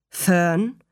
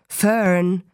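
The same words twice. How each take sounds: First: Gentle, understated fatherly address; sanft. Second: Said in the usual way. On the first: A narrator's reading. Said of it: "sagte er sanft". (sanft angesprochen) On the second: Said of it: "sagte Mister Arable".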